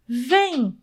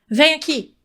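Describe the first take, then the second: First: It is said in a friendly, inviting tone. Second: It is said in a harsh, scolding tone.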